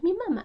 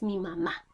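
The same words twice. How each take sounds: First: "mamá" said as MAma, falling after first syllable; wrong stress. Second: "mamá" said maMÁ, weight on last syllable; correct final stress. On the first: Teacher correcting the word, "mamá" wrongly stressed on first syllable. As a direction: hit the first "ma" of "mamá", drop the last. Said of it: "y no es". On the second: Teacher giving the right form, "mamá" stressed on final syllable. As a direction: land firmly on the final "má" of "mamá". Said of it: "es mi mamá". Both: Shown as a demonstration.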